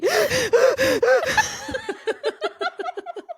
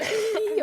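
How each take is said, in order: First: High, braying forced laugh; donkey laugh. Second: Short forced snicker. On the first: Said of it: "That's my donkey". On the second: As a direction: squeeze out a fake little snicker. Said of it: "Can you do a demo?". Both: Shown as a demonstration.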